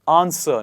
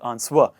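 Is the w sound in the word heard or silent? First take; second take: silent; heard. First: The w sound is silent. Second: The w sound is clearly pronounced. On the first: The speaker calls it right. "It is answer" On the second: The speaker calls it wrong. "pronounce the w sound in an exaggerated manner"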